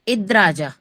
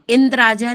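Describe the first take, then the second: First: No nasal sound comes before the 'd'. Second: A nasal sound comes before the 'd'. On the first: The speaker calls it right. "ऊपर बिंदी नहीं है" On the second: The speaker calls it wrong. "इंद्राजा नहीं है"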